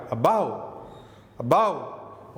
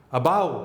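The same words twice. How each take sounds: First: "above" said almost as bav; "above" with first vowel nearly dropped; reduced above. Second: "above" with weak a and stressed bove; stress on second syllable. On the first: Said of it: "तो आपको सुनाई क्या देगा". ("above" लगभग "बाव" जैसा) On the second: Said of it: "इसमें यहां पर स्ट्रेस है". ("above" में दूसरे हिस्से पर ज़ोर) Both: Shown as a demonstration.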